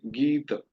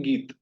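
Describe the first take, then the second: First: "गीत" with the final a sounded, "geeta"; full Sanskrit ending. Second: "गीत" ending on a bare t, as in everyday Hindi; Hindi clipped ending. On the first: Teacher showing students the full Sanskrit form. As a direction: finish "गीत" on a short open a. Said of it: "पूरा बोलना है संस्कृत में". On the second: Teacher showing students the everyday Hindi habit, clipped. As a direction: say "गीत" as "geet" with no final vowel. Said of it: "normally हम बोलते हैं गीत". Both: Shown as a demonstration.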